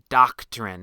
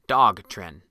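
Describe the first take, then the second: First: The first syllable sounds like 'dock'. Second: The first syllable sounds like 'dog'. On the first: The speaker calls it right. "It's Doctrine, not Dogtrin" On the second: The speaker calls it wrong. "Wait, that's that's not right"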